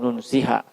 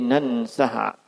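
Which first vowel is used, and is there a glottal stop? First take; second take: u, no stop; a, stop. First: It starts with 'u' and has no glottal stop. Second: It starts with 'a' and has a glottal stop. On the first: "di dhammah tanpa ada hamzah" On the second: "di fathah ... dengan tambahan huruf hamzah"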